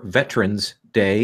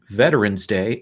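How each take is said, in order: First: It is said in an Indiana-style pronunciation. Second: It is said in a general American pronunciation.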